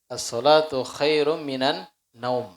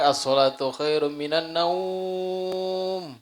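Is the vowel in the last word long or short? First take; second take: short; long. First: The vowel in the last word is kept short. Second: The vowel in the last word is drawn out long. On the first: The speaker calls it right. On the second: The speaker calls it wrong.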